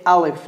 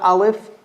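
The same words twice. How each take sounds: First: Alif said with a thin front ah, the common mistake; mock the common mistaken Alif; wrong Alif. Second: Alif with the ah from the bottom of the throat; correct Alif. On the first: Teacher demonstrates the wrong Alif, thin ah. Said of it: "Common mistake people make, they say here". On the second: Teacher shows the right Alif, from the throat. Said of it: "Bottom of the throat". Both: Shown as a demonstration.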